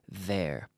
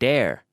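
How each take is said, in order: First: It begins with a th sound, tongue out. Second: It begins with a hard d sound. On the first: The speaker calls it right. "You have to stick your tongue out" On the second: The speaker calls it wrong. "make sure you're not saying dare"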